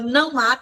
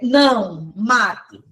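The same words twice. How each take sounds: First: It is said without a pause. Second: There is a pause after não.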